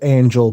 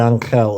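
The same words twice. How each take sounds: First: It is said with an English pronunciation. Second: It is said with a Spanish pronunciation. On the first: The speaker calls it wrong. "I know people pronounce it Angel" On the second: The speaker calls it right. "the way they would say it in a Spanish-speaking place"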